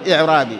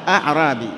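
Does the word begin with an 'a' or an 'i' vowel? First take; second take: i; a. First: The word begins with an 'i' vowel. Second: The word begins with an 'a' vowel. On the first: The speaker calls it wrong. "بعضهم ينطقها خطأ يقول إعرابي" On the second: The speaker calls it right. "هو أعرابي بفتح الهمزة أوله"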